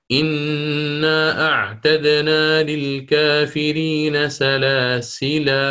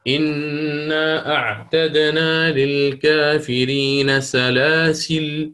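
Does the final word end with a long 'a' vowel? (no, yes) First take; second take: yes; no. First: The last word ends with a long 'a' vowel. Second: The last word ends without a final vowel. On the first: This is the pausal reading that keeps the final alif. "أثبت" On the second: This is the pausal reading that drops the final alif. "يحذف"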